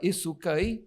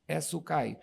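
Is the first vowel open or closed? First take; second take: closed; open. First: The first vowel is more closed. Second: The first vowel is open. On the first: It means a mullet fish. "vogal um pouco mais fechada" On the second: It means a village or settlement. "As vogais abertas"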